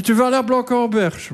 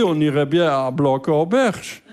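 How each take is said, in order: First: Higher-pitched questioning of the place; incredulous echo. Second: Slow, measured retold proposal; tentative suggestion. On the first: Retold or imitated. Comedian plays partner querying his seaside choice, incredulous echo. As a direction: throw the suggestion back, pitched up. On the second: Comedian proposes a seaside town to partner, tentative suggestion. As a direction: offer the destination slowly.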